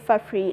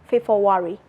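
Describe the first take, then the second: First: It is pronounced the English way. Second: It is pronounced the Burmese way. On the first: "We don't say February like English" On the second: "in Burmese people will say February"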